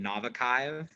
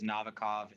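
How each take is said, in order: First: The name is said in a Russian-style way. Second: The name is said the usual American way. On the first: This is how the restaurant itself says it. "They pronounce it Novikaiv" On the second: This is how locals in the city say it. "That's how like everyone pronounces it in Miami"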